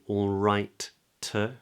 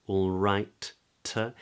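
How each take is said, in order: The two takes are said the same way.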